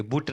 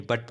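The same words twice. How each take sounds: First: बुट with a short oo vowel; wrong pronunciation. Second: बट with a short uh vowel; correct pronunciation. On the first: Teacher showing learners the misreading, wrong pronunciation बुट with oo. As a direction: say बुट, rhyming with "put". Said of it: "बुट नहीं". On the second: Teacher correcting learners' reading, correct pronunciation बट with uh. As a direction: say बट like English "but", pitch dropping. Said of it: "बट पढ़ेंगे". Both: Shown as a demonstration.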